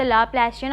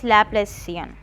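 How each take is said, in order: First: Laplacian said with a "sh" sound, la-PLA-shee-an; "sh" pronunciation. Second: Laplacian said with an "s" sound, la-PLAY-see-an; "s" pronunciation. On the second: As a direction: say the c in Laplacian as a plain "s". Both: Shown as a demonstration. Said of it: "She or she".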